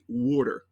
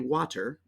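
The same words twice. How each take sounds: First: Water is said in a Philadelphia accent. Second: Water is said in a general American way. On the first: "I'm from Philadelphia, ... we say water" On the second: "we don't say water"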